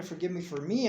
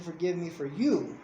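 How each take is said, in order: First: The final "me" picked out in contrast; stress on ME. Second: The final "you" punched in contrast; stress on YOU. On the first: Parent tells child whom forgiveness is for, stressing "me". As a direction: lean on the last "me", lifting it at the end. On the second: Parent tells child whom forgiveness is for, stressing "you". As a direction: land firmly on "you" as the one who gains. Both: Real, not acted.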